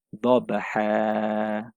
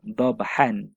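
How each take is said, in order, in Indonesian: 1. Kata ini berakhir dengan vokal yang dipanjangkan. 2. Kata ini berakhir dengan bunyi n. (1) "Tapi bila berhenti" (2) "Kalau sambung"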